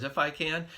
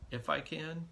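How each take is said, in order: First: If I can, said louder and firm, with weight on every word; firm emphatic repeat. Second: A mildly incredulous echo of the words. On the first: Jesus correcting the father's doubt, firmly and louder. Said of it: "No, he says". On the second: Jesus echoing the doubting father's words, mildly incredulous. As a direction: question the doubt lightly, as if amazed. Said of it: "Do you know who you're talking to?". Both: Retold or imitated.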